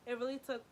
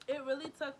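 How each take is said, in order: Both takes have the same delivery.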